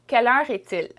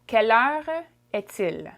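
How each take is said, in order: First: It is said quickly and smoothly. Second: It is said slowly and carefully.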